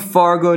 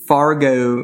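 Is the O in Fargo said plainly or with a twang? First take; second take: plain; twang. First: The O is said in a standard way. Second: The O has a strong regional twang. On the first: "you tried so hard to say that with the correct O" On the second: "you got to say it with the twang"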